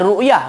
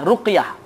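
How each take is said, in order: First: The middle consonant is not a deep q. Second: The middle consonant is a deep q. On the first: The speaker calls it wrong. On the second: The speaker calls it right. "dibaca ra, ra, qaf, ya"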